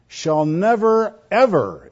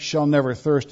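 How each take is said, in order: First: "never ever" stretched out slow and higher, both words leaned on; emphatic never ever. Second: Said in the usual way. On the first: Shown as a demonstration. Preacher driving home the literal wording to his flock, emphatic. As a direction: land hard on "never ever" with a slow, lifted push. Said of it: "It's very emphatic". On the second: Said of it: "The words translated".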